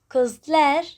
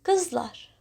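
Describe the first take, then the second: First: Kızlar with its last vowel fronted to "æ"; wrong-harmony kızlar, ending "-lær"; mismatched suffix vowel. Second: Kızlar ending in an open back "-lar"; correct vowel harmony. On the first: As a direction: say kızlar as "kız-ler". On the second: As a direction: say kızlar with "ah" in the suffix. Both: Shown as a demonstration. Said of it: "better to say".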